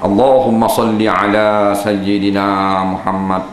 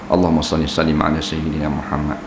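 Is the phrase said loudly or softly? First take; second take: loudly; softly. First: It is said loudly and forcefully. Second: It is said quietly and softly. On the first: The speaker calls it wrong. "ni dia kuat" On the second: The speaker calls it right.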